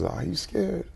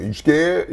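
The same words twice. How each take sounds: First: Softer, caring "Are you scared?" with a rise; the right gentle way. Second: Louder, curt challenge of a tough dad; wrong tough way. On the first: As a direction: ask "Are you scared?" tenderly, no pressure. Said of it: "I wanted to make sure I said that right". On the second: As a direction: bark "You scared?" like a taunt. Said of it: "It wasn't like". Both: Shown as a demonstration.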